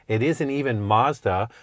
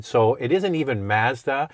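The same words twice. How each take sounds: First: Mazda with a broad ah, MAHZ-da. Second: Mazda with a flat a. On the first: Host tells viewers Mazda is wrong, broad a. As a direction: Mazda said with an a as in father. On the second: Host tells viewers Mazda is wrong, flat a. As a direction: Mazda said with an a as in cat. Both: Shown as a demonstration. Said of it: "The real name is Matsuda".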